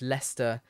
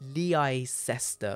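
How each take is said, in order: First: The name is said in its local form. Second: The name is read out as it is spelled. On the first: The speaker calls it right. "but it's Leicester" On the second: The speaker calls it wrong. "when you read it, it looks like Leicester"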